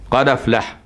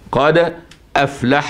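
First: The glottal stop is dropped, the d carrying its vowel. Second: The glottal stop is clearly pronounced before 'aflah'. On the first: "أروح ناقل حركة الهمزة اللي هي الفتحة للدال الساكنة قبلها قد، واحذف الهمزة" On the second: "مقلقلة لأنها ساكنة الدال، وبعدها همزة مفتوحة"

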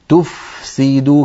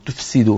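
First: The f is clear, breathy and held longer. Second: The f is weak and the s dominates. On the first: The speaker calls it right. "فلا بد من أن نبين الفاء ونعطيها حقها من الرخاوة والهمس والزمن" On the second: The speaker calls it wrong. "فتجد بأن الفاء تخرج ضعيفة والسين باعتبارها فيها صفير وقوية تطغى عليها"

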